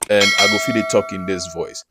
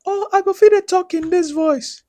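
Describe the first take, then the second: First: Said in the usual way. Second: Extremely high, loud falsetto-like voice; put-on very high voice. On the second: Shown as a demonstration. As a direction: push the voice way up high and louder. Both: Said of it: "There are different voices where you go feel make".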